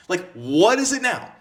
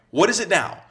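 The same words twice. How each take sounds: First: Slower mock exasperated. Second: Mock exasperated. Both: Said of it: "And you're like".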